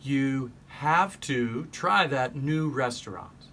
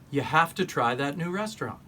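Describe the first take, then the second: First: The word 'have' ends with a V sound. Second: The word 'have' ends with an F sound.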